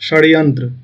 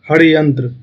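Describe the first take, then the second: First: The word begins with an sh sound. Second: The word begins with a kh sound. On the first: This is the standard pronunciation. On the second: This is the Maithili pronunciation.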